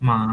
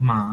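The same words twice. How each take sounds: The two takes are said the same way.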